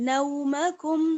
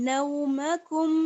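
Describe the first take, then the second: No difference in how they are said.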